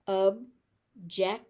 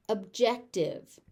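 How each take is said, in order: First: "Objective" slowly as ub, jec, tive; three separate beats on "Objective"; syllable by syllable. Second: Said in the usual way. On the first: Shown as a demonstration. Teacher sounding out "Objective" for learners, slowly by syllable.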